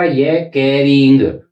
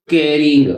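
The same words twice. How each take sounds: First: कैरिंग drawn out slowly; slow model word. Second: Said in the usual way. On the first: Shown as a demonstration. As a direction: stretch कैरिंग for the class. (कैरिंग धीरे खींचकर)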